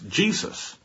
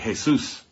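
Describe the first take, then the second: First: The name is said with an English pronunciation. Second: The name is said with a Spanish pronunciation. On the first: "that's the English transliteration of the name of the Lord" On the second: "If you're in a Spanish-speaking country, you might say Jesus"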